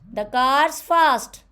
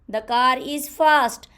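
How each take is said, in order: First: The word 'is' merges into 'car's'. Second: The word 'is' is said as a full separate word.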